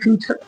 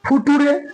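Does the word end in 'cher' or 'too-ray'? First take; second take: cher; too-ray. First: The ending is pronounced as 'cher'. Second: The ending is read as 'too-ray', letter by letter. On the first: The speaker calls it right. "फिलहाल आप इसको फ्यूचर ही पढ़िए" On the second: The speaker calls it wrong. "F U T U R E फुटूरे भी तो पढ़ सकता हूं"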